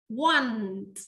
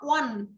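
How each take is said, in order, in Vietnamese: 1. Từ này nghe như 'want', có kết thúc bằng t. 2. Từ này nghe như 'one', không có âm t ở cuối. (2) "Some of the people here will got the wrong pronunciation like that. What? Not one"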